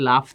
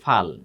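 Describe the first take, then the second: First: The word begins with the l sound. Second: The word begins with the ph sound. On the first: "এখানে লটা ছিল শুরুতে" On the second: "ফটা ছিল শেষে, এটা চলে আসছে কোথায়? শুরুতে।"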